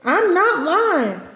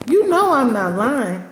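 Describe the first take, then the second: First: "I'm not lying" stretched out slowly, NOT leaned on; slow emphatic denial. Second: Said in the usual way. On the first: Shown as a demonstration. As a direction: drag out "not" to insist. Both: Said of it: "I'm telling the truth".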